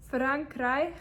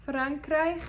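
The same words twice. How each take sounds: The two takes are said the same way.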